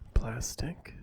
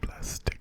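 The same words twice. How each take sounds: First: The word is spoken in a soft, voiced tone. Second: The word is barely audible, almost silent. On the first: "in a normal soft-spoken voice like plastic" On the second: "all the way down in my inaudible voice"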